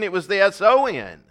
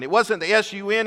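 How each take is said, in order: First: S O N spelled letter by letter; S O N given as separate letters for the play on words. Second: S U N spelled letter by letter. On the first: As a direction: spell out S O N, each letter apart. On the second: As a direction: spell out S U N, each letter apart. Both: Shown as a demonstration.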